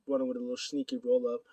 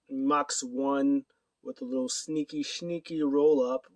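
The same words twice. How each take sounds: First: Said in the usual way. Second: "sneaky" repeated and stretched out slowly; drawn-out emphasis. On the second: Shown as a demonstration. Recapping Mox's roll-up win, drawn-out stress on "sneaky". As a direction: linger on "sneaky", second one slurred toward "shneaky". Savouring the sneaky winning move.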